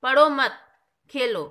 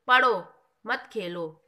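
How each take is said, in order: First: पढ़ो मत said loud as one unit, pause, then खेलो; pause after मत. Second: पढ़ो said alone, pause, then मत खेलो together; pause after पढ़ो. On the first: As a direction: join पढ़ो to मत, break before Khelo. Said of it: "यहाँ पढ़ने के लिए मना कर". (पढ़ो मत ज़ोर से एक साथ, फिर रुककर खेलो) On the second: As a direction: break right after पढ़ो, before मत खेलो. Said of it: "यहाँ पे पढ़ने के लिए कहा है". (पढ़ो के बाद विराम, फिर मत खेलो एक साथ) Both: Shown as a demonstration.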